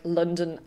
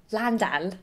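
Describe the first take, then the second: First: Said in the usual way. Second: Quick, self-mocking stab at a London accent. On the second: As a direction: say "Landan" with the vowels opened up, a mock London accent. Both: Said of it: "Okay, that's terrible".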